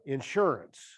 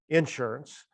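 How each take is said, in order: First: It is said with a standard, non-Southern pronunciation. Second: It is said with a Southern regional pronunciation.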